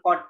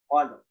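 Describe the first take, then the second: First: The word stops on d with no r. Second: The d bounces and a final r is heard. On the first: The speaker calls it wrong. "kalau qad doang, ... tidak ada qalqalahnya, ditambah kita menghilangkan huruf ro" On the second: The speaker calls it right. "Masuknya ke huruf ro"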